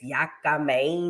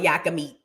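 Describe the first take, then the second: First: The name ends with the sound 'mein'. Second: The name ends with the word 'meat'. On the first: This is how it is properly pronounced. The speaker calls it right. "It's yaka main or something like that" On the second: This is the local way of saying it. The speaker calls it wrong. "we just call it yaka meat"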